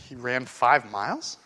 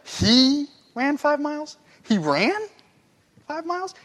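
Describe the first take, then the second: First: "miles" rising in disbelief; low, slow doubting question ending on "miles"; incredulous question. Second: Stunned and laughing at the idea; amazed disbelief. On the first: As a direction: ask it like you can't believe it. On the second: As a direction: stretch "five", then a big rise on "miles". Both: Shown as a demonstration. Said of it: "You'd be like".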